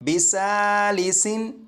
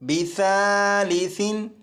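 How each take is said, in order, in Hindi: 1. व्यंजनों में तेज़ सिसकारी जैसी आवाज़ है। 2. व्यंजन नरम हैं, इनमें कोई सिसकारी नहीं। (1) "इस लफ्ज़ को इस तरह नहीं पढ़ेंगे" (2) "सीटी की आवाज़ ख़त्म हो जाएगी"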